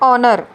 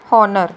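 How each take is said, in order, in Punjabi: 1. ਸ਼ਬਦ ਸਵਰ ਨਾਲ ਸ਼ੁਰੂ ਹੁੰਦਾ ਹੈ, h ਨਹੀਂ ਹੈ। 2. ਸ਼ਬਦ h ਧੁਨੀ ਨਾਲ ਸ਼ੁਰੂ ਹੁੰਦਾ ਹੈ। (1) "ਦਿਸ ਇਜ਼ ਓਨਰ" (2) "ਨੋਟ ਹੋਨਰ"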